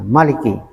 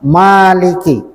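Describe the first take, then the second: First: The first vowel is kept short. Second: The first vowel is held long. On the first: The one who holds kingship or power. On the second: The one who owns. "panjang ma-nya"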